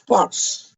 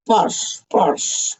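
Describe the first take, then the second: First: A sudden, very high squeaked posh. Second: Breathy whispered posh. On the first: Sudden squeak after whispers. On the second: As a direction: whisper the word posh twice. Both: Pretend.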